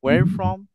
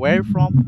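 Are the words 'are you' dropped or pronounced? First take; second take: dropped; dropped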